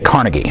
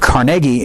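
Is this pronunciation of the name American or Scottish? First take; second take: American; Scottish. First: The name is said the American way. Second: The name is said the Scottish way. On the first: It refers to the buildings and organizations. "that's just because of our American pronunciation" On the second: It refers to the man himself. "that's apparently the Scottish pronunciation"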